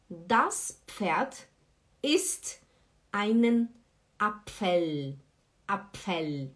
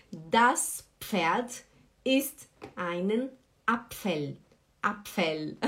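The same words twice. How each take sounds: The two takes are said the same way.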